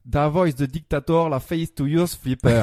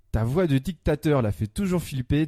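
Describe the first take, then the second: First: French lyrics read with a put-on English accent; best English accent. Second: Said in the usual way. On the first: Shown as a demonstration. Columnist rereading French lyrics to find a clue, English accent. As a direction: mangle it into mock English pronunciation. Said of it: "avec mon meilleur accent anglais". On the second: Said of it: "je lis les paroles".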